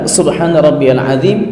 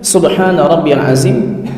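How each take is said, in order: First: Azim begins with a soft th sound. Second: Azim begins with a plain z sound. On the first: "masih terucap dengan zal" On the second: "masih terucap subhana rabbiyal azim dengan zai"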